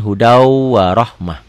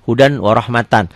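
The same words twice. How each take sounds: First: Slow "hudau warohmah" with held w and final h; stopped reading. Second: "hudan warohmatan" with clear n and full "tan"; as written. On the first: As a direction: glide through "hudau", stop "warohmah" on h. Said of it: "Kalau dihentikan". ("hudau warohmah" pelan, berhenti di h) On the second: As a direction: pronounce every written ending in "hudan warohmatan". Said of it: "kalau ditulisin". ("hudan warohmatan", semua n jelas) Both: Shown as a demonstration.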